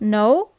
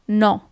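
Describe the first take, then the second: First: It is said with an English-style pronunciation. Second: It is said with an Italian-style pronunciation. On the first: The speaker calls it wrong. "It's not no" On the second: The speaker calls it right. "but it's no"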